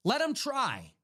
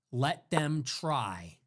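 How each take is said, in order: First: Pitched up and punchy; higher defiant repeat. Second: Drawn-out, very slow and a bit low; slow defiance. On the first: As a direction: throw the challenge back, higher. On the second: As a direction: let each word hang, very slowly. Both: Shown as a demonstration.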